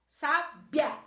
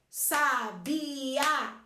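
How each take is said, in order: First: The last two vowels glide together in one syllable. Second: The last two vowels are said in separate syllables. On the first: "Se esses sons saem juntos" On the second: "se eu falo sons separados"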